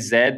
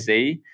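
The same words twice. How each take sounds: First: The letter is said the Australian way, zed. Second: The letter is said the American way, zee.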